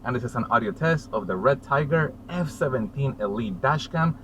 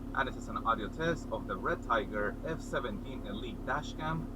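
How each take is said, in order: First: The voice sounds close, from inside the car. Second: The voice sounds distant, from outside the car. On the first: "I am sitting on the driver's side seat" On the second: "I'm standing outside the driver's side door"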